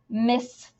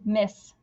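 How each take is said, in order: First: The final s sound is pronounced twice. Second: The final s sound is pronounced once. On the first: The speaker calls it wrong. "We don't say miss" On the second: The speaker calls it right. "We just say miss"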